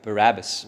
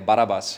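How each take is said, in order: First: The name is said with English pronunciation. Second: The name is said with Afrikaans pronunciation.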